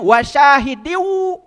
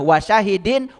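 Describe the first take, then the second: First: The final n merges into a w sound. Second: The final n is clearly pronounced. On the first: The recitation rule for a following waw is applied. "itu idgham bigunah. Dibacanya wasyahidiu" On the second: The words are read separately, one by one. "saya bacanya pisah-pisah"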